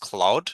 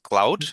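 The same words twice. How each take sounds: First: The vowel sounds like 'aw' in law. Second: The vowel sounds like 'ow' in cow. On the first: The speaker calls it right. "the pronunciation is cloud" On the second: The speaker calls it wrong. "you're pronouncing that as cloud"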